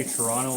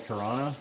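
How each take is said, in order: First: Said in the usual way. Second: "Toronto" slurred to Toronna, second T dropped; "Toronto" run together without its last T; local Toronto pronunciation. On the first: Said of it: "some people who will say Toronto like". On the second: Shown as a demonstration. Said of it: "some people who will say Toronto like Toronto".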